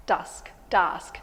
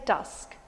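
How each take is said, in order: First: "dusk, dusk" repeated with the short u; repeating dusk. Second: "dusk" with a clear open vowel. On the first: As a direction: say "dusk" twice, open and short. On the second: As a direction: say "dusk" with the short u sound. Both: Shown as a demonstration. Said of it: "You say dusk".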